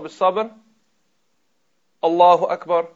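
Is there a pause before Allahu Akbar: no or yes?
yes. A short pause comes before Allahu Akbar. The speaker calls it right. "don't join the two. Give a little break"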